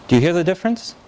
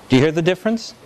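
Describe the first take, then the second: Both takes have the same delivery.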